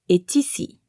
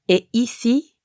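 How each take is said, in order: First: A T sound links est to ici. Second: The final T of est is silent.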